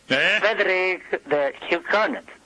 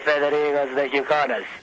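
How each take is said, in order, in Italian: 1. Il nome è detto con un finto accento francese. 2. Il nome è detto con un finto accento spagnolo. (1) "In espressione francese" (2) "In espressione spagnola"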